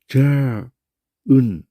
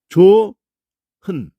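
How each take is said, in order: First: The final consonant is kept, with a break. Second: The h sound moves into the second syllable. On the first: The speaker calls it wrong. "이렇게 발음 안 해요" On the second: The speaker calls it right. "그냥 조자만 발음하고 히읗자를 이 이응에다가 그냥 넣어서"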